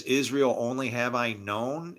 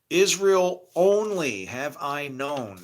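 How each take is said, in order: First: Said in the usual way. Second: "Israel only have I known" slow, louder, with weight on known; stress on known. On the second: Shown as a demonstration. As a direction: read the verse out slowly and lean on known. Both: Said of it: "I got quotes around known".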